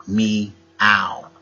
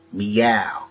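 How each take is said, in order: First: "Meow" drawn out as two parts, me and ow; split into syllables. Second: Said in the usual way. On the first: Shown as a demonstration. Wordplay teacher breaks down "Meow", split into me, then ow. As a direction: say "Meow" slowly, pausing between me and ow.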